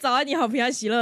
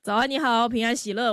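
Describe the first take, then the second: First: It is said in a lively, energetic voice. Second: It is said in a flat, lifeless voice.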